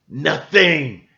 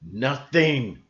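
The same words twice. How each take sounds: First: "Nothing" said louder and sharper; emphatic repeat. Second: Said in the usual way. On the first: Real, not acted. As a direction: punch the word "Nothing".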